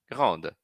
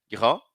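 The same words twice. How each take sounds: First: "Grande" with the D spoken; final D sounded. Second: "Grand" ending on the nasal vowel; silent final D. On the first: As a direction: pronounce the D in "Grande". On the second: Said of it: "não pronuncio". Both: Shown as a demonstration.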